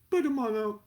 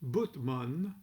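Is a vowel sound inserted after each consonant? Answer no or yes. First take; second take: yes; no. First: A vowel is added after each consonant. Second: The consonants run together without added vowels.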